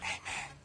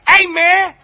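First: It is said quietly, almost too softly. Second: It is said loudly, like a yell.

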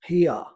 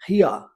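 First: It is said in a British accent. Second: The same.

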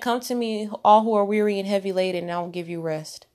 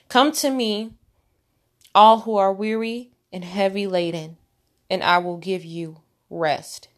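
First: It is said at normal speed. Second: It is said slowly.

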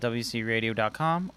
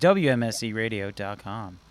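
First: It is said fast. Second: It is said more slowly.

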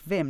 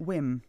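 First: The name starts with a V sound. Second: The name starts with a W sound. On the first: The speaker calls it right. "but pronounced Vim" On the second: The speaker calls it wrong. "not Wim"

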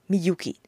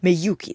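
First: The first syllable has an 'ee' vowel. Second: The first syllable has an 'eh' vowel. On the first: This is the name's own pronunciation. "でもみゆきは結構ちゃんと呼んでもらいますね。" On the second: This is how others actually say the name. "でもみゆきって呼ぶ人はいないですけど、めゆきですね。"

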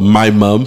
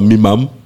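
First: It is said in a standard accent. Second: It is said in a northern English accent.

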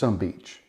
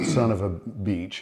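First: The words are squeezed into two syllables. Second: Every word is said in full, four syllables. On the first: The speaker calls it right. "It's S-U-M beach. It's just some beach. It's so much more efficient" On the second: The speaker calls it wrong. "It's not son of a beach"

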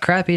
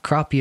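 First: The word has a Southern US pronunciation. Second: The word has a Northern US pronunciation. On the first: "It's Crappie down south" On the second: "Crappie if you're a Yankee"

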